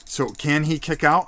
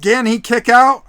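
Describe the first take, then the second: First: Said in the usual way. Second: Louder, higher urgent question; excited. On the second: Acted. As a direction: ask it on the edge of your seat. Tense near fall, raised voice.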